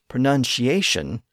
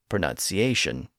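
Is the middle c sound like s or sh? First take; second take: sh; s. First: The middle c is said as sh. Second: The middle c is said as s. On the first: This is the older shifted pronunciation. "The C in the middle and the T near the end both shifted to an SH sound" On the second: This is the modern reverted pronunciation. "the C has reverted back to its original pronunciation"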